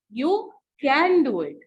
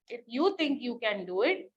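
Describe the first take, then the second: First: Can said louder, the phrase falling; stress on can. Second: Said in the usual way. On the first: Shown as a demonstration. Teacher showing the class the right way to say it. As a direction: punch can to sound sure. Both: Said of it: "it has to be spoken in the right way".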